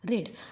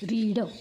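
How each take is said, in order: First: The vowel is short, like in 'red'. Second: The vowel is long, like in 'reed'. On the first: The action happened in the past. "रीड ह्या क्रियापदाचा जेव्हा पास्टमध्ये उच्चार रेड होतो" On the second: The action happens in the present. "इथे आहे रीड"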